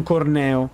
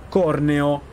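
First: Slow "Corneo", stressed as cor-NÈ-o; stress on second syllable. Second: Slow "Corneo", stressed as CÒR-ne-o; stress on first syllable. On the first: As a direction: say "Corneo" slowly, hitting NE. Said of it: "e non Corneo". ("Corneo" lento, accento su NE: cor-NÈ-o) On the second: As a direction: say "Corneo" slowly, hitting COR. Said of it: "tecnicamente noi dovremmo chiamarlo". ("Corneo" scandito piano, accento su COR: CÒR-neo) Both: Shown as a demonstration.

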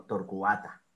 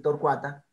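First: "torcuata" as tor-cu-A-ta, stress on the A; lower, split U from stressed A in "torcuata"; corrected "torcuata". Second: "torcuata" with cua run into one syllable; wrong "torcuata". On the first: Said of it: "con el acento en la A". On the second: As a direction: glide "torcuata" as tor-CUA-ta. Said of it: "no deberíamos decir torcuata". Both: Shown as a demonstration.

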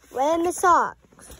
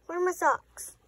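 First: Louder, slower Where are my socks, exasperated; real exasperation over lost socks; Where are my socks, loud and drawn out in frustration; frustrated. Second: Said in the usual way. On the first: Real, not acted. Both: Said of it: "I don't say that when I'm angry".

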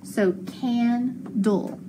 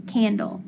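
First: "candle" stretched slow, syllable by syllable; slow sounded-out candle. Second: Said in the usual way. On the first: Shown as a demonstration. Teacher modelling the word, slow and drawn out. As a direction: draw out "candle" slowly, each part clear.

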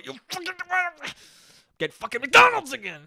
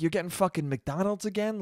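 First: High-pitched, swelling to a loud half-laughing yell; angry self-scolding outburst. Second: Said in the usual way. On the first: Shown as a demonstration. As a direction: explode at yourself once nobody can see. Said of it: "when I get around the corner ... I go". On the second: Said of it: "just be in my car thinking about".

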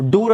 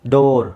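First: ಡೂರ್ higher, with a long oo; wrong oo in door. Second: ಡೋರ್ with a long, firm oh; correct long o. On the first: Teacher quizzing learners on door, wrong oo. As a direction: give ಡೂರ್ a questioning oo vowel. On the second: Teacher answering the practice question, long oh. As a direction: say ಡೋರ್ with oh, not oo. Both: Shown as a demonstration. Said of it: "ಇಲ್ಲ".

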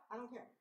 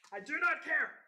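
First: Said in the usual way. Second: Louder, higher, every word hit; NOT spelled out, hit hard and apart; emphatic. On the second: Real, not acted. Insisting to viewers she does not care.

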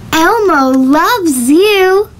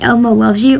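First: Slow, drawn-out cartoon voice; Elmo voice. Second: Said in the usual way. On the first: Vlogger doing an Elmo line for the cartoon filter, slow and cooing. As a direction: coo it like Elmo. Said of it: "Maybe I'm gonna try Elmo". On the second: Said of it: "I don't know, like".

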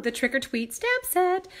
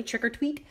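First: Trick or Tweet stamp set drawn out slowly and high, stressed on stamp; said funny. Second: Said in the usual way. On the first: Real, not acted. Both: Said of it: "I know I just said that funny".

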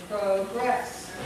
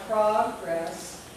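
First: Progress said slowly as "pro-GRESS"; verb pronunciation. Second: Progress said slowly as "PROG-ress"; noun pronunciation. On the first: Teacher contrasts word division, progress as "pro-GRESS". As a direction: open long o in progress, weight on the drawn-out second syllable. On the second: Teacher contrasts word division, progress as "PROG-ress". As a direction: stress the first syllable of progress, short o closed by g. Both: Shown as a demonstration. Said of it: "the division is different".

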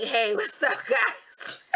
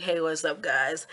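First: A hint of a put-on hello; pretend greeting voice. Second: Low, deadpan mock hello; pretend low-key greeting. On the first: Vlogger offers viewers an alternative intro, mock greeting. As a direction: greet viewers in a lightly mocking voice. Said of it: "Or would you like me to be like". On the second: Vlogger guesses what viewers prefer, mock low-key greeting. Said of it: "I think you'd rather me be like".

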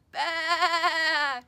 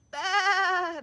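First: Big, loud, triumphant bleat; loud baa. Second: High, loud bleat; lambs bleating. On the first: Lamb finding his voice again, loud happy bleat. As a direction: let the baa ring out proudly. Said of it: "he let out a loud". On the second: Lambs answering the little lamb, bleating. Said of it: "the lambs replied". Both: Acted.

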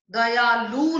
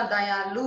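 First: दयालु with a loud long "loo"; wrong long ending. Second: Said in the usual way. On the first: Shown as a demonstration. Teacher correcting a mistake, दयालु with long loud loo. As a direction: stretch the last vowel of दयालु. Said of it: "नहीं होता". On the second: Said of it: "होता है".

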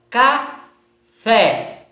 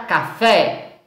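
First: "café" in two slow beats, ca, pause, fé; split into syllables. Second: Said in the usual way. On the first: Shown as a demonstration. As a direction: separate both syllables of "café" clearly. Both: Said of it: "tenham separado as sílabas".

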